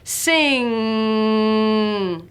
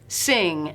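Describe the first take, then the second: First: The final ng sound is held long. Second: The final ng sound is short. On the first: "hold out that final N G sound" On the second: "say the word sing"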